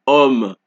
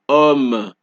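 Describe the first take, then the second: No difference in how they are said.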